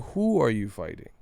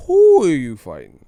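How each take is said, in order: First: Said in the usual way. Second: WHO blasted loud and stretched; loud, exasperated punch on "who"; exasperated stress on who. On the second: Real, not acted. Demanding an absent boxer's next opponent, exasperated stress on "who".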